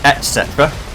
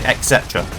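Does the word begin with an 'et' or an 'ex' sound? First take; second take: et; ex. First: The first syllable is said with a plain 't'. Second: The first syllable is said with an 'x' sound. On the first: The speaker calls it right. "I know it's et cetera" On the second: The speaker calls it wrong. "but I say et cetera, like with an X"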